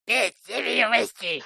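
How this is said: It is said in a gremlin voice.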